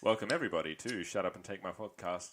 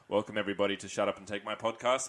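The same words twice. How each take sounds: First: It is said in a lowered voice. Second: It is said in his normal voice.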